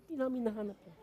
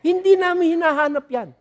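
First: Quiet aside. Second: Higher, louder insistence on "Hindi namin hinahanap yan"; emphatic repeat. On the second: Pastor to congregation, insisting louder the second time. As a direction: drive home "hindi" with a loud high repeat. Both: Shown as a demonstration.

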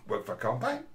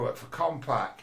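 First: Imitated uptalk, "Compaq" swinging up; mock uptalk. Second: Said in the usual way. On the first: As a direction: parrot her with a rise on "Compaq". Repeats it mocking her end inflection.

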